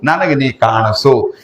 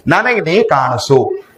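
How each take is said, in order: First: Slow plea leaning on ನನಗೆ; stress on ನನಗೆ. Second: Slow plea leaning on ನೀ; stress on ನೀ. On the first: Preacher voicing a devotee's plea to God, ನನಗೆ stressed slowly. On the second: Preacher voicing a devotee's plea to God, ನೀ stressed slowly. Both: Shown as a demonstration. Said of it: "ದೇವ್ರ ಮುಂದೆ ಅಳಾಕ ಚಾಲು ಮಾಡು".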